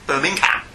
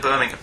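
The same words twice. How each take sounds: First: It is said with an American accent. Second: It is said with a British accent. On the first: The speaker calls it wrong. "It's like when they say Birmingham" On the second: The speaker calls it right. "Instead of Birmingham"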